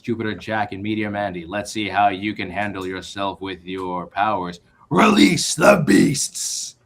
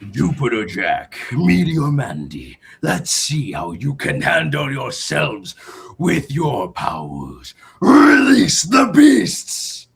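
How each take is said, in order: First: It is read in his plain voice. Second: It is read in a character voice.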